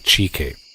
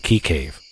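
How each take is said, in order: First: The first word begins with a 'ch' sound. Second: The first word begins with a 'k' sound. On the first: The speaker calls it right. "I'll say Chi Cave. You actually pronounce it Chi" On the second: The speaker calls it wrong. "everybody else pronounce it Key"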